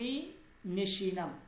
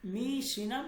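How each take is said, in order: First: The verb is said with the extra 'ne' syllable. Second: The verb is said without the extra 'ne' syllable.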